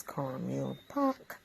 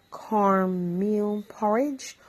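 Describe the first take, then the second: First: "pork" said the Bajan way, short and soft; "cornmeal pork" clipped to one quick syllable; Barbadian pronunciation. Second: "porridge" said fully, two syllables, slowly; "porridge" spelled out plainly, slow; standard "porridge". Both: Shown as a demonstration. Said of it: "or as we call it here in Barbados".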